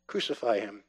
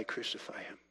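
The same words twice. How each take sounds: First: Said in the usual way. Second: Whispered cry. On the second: Retold or imitated. Preacher voicing the heart's hidden cry, whispered. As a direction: whisper it, much softer.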